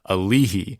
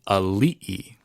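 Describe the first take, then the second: First: An h sound is said between the vowels. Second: A glottal stop is said between the vowels. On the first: The speaker calls it wrong. "my dad cannot seem to crack that code" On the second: The speaker calls it right. "it's actually Ali'i. It's an Okina"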